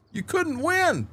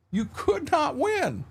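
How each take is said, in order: First: High-pitched exasperation; high storyteller's lament; exasperated punchline. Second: "could not" spelled out slowly and high; slow, high, emphatic "could not"; emphatic repeat. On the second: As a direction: stretch "could not" as two separate, weighty words. Punchline repeated slower for emphasis. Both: Real, not acted.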